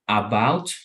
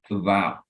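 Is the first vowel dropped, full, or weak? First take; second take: full; weak. First: The first vowel is said fully and strongly. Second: The first vowel is a weak, reduced sound. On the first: The speaker calls it wrong. "instead of saying about" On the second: The speaker calls it right. "we say"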